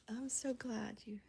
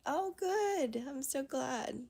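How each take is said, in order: First: Said in the usual way. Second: Higher, louder burst of delight; real happy surprise, bright and loud; excited. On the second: Real, not acted. Happy reply to a viewer.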